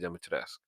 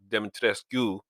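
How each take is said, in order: First: The ending does not sound like rescue. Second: The ending sounds like the English word rescue. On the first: It is the usual pronunciation. "for the most part, the way it's pronounced uh, is Lady Demetrescu" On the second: It follows how the spelling looks. "in some some places they actually call her Lady Demetre- Demetrescu, because you know whether her name looks like rescue"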